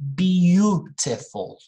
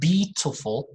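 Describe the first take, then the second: First: A 'you' sound follows the b. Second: No 'you' sound follows the b. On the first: The speaker calls it right. "Just say beautiful" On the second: The speaker calls it wrong. "not beautiful"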